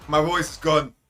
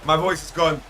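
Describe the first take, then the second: No difference in how they are said.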